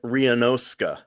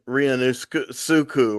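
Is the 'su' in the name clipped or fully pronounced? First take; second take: clipped; fully pronounced. First: The 'su' is clipped to a short 'ska'. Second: The 'su' is drawn out as a full syllable. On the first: The speaker calls it right. "you don't draw it out like us Americans" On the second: The speaker calls it wrong. "I thought it was"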